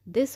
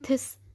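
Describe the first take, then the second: First: The word begins with a d sound. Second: The word begins with an aspirated t sound. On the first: The speaker calls it right. "दिस होता है" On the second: The speaker calls it wrong. "यहाँ पे थिस नहीं पढ़ेंगे"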